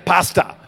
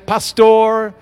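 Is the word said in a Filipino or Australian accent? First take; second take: Australian; Filipino. First: It is said in an Australian accent. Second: It is said in a Filipino accent.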